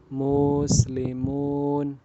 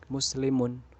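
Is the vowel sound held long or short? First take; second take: long; short. First: A vowel is stretched out long. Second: The vowels are all kept short. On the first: The speaker calls it wrong. "Tidak boleh dibaca muslimun" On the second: The speaker calls it right. "pendek, maka harus dibaca pendek"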